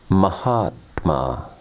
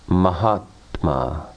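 The two takes are said the same way.

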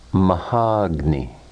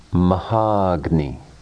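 The two takes are said the same way.

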